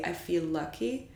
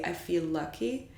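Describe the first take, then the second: First: One L sound carries over between words. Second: The same.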